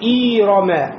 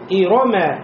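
First: The first vowel is drawn out long. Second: All the vowels are kept short. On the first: The speaker calls it wrong. "как будто после хамза появилась буква я, нельзя" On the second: The speaker calls it right. "и не тянем"

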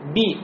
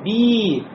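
First: The vowel is short and not drawn out. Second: The vowel is drawn out and long. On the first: The speaker calls it right. "И будет у меня" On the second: The speaker calls it wrong. "Ну не тянем, то есть не говорим би"

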